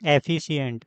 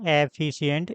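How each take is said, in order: First: The first vowel sounds like 'e'. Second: The first vowel sounds like 'e'.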